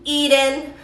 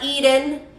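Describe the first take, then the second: First: The T is said softly and relaxed. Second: The T is said softly and relaxed.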